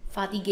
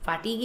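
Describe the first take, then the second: First: Soft French fatigue in three syllables; French pronunciation. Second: FATIGUE as "fa-TEEG", two syllables; English pronunciation. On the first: Teacher contrasting French with English, French pronunciation. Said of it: "fatigue in French". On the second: Teacher contrasting English with French, English pronunciation. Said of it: "Fatigue in English". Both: Shown as a demonstration.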